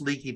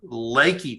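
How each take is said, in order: First: The first syllable has a 'lee' vowel. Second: The first syllable has a 'lay' vowel. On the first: The speaker calls it wrong. "it's not pronounced Leaky" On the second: The speaker calls it right. "It's pronounced Lakey"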